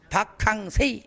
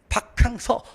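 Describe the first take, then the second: First: The last syllable is said as 'sei'. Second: The last syllable is said as 'seo'.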